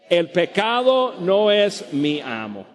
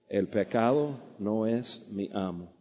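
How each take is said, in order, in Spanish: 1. La frase se dice en voz alta. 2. La frase se dice en voz baja. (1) "decimos todos en voz alta" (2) "pero ahora quietecito"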